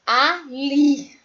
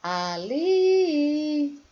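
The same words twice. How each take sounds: First: "Ali" in two firm, separate syllables, LI punched; emphatic syllables. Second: "Ali" half-sung, LI raised and held long; sing-song stretch. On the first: Teacher giving an oxytone example, emphatic split syllables. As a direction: say "Ali" louder, split before LI. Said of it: "gesticula a sua boca mais profundamente". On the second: Teacher showing the last syllable is stressed, sing-song stretch. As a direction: chant "Ali", letting the LI ring on. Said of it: "mais intensamente". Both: Shown as a demonstration.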